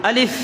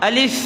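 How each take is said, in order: Both takes have the same delivery.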